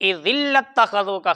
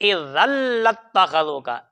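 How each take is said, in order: First: The vowel after 'idh' is an 'i' sound. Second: The vowel after 'idh' is an 'a' sound. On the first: The speaker calls it wrong. "इज़िल्लत्तख़ज़ूका ख़लीला नहीं है" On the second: The speaker calls it right. "इज़न है बेटे, इज़न"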